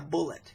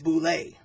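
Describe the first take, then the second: First: It is said like the word 'bullet'. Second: It is said like 'boo-lay'. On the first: The speaker calls it wrong. "It is not a bullet" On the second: The speaker calls it right. "the correct pronunciation of this monster in D and D is Boule"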